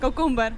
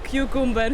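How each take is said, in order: First: The first syllable is said as plain 'koo'. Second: The first syllable is said as 'kyoo' with a glide. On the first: The speaker calls it wrong. "Это называется Indian English" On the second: The speaker calls it right. "а правильно называть кьюкумбер"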